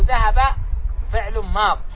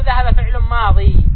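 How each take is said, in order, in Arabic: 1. تنتهي الكلمة الأخيرة بحرف ساكن. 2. تنتهي الكلمة الأخيرة بياء مدية طويلة. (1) "نقول" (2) "لا نقول"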